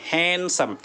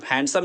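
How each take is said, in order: First: हैंडसम said "han-sum", no D; silent D. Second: हैंडसम with the D sounded; mispronunciation with D. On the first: Teacher corrects the word for learners, silent D in हैंडसम. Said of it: "डी नहीं पढ़ेंगे". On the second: Teacher shows learners what not to say, D sounded in हैंडसम. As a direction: say हैंडसम as "hand-sum". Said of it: "हैंडसम नहीं है". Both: Shown as a demonstration.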